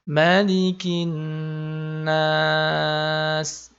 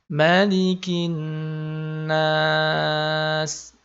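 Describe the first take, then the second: First: The vowel in 'nas' is held moderately long. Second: The vowel in 'nas' is held moderately long.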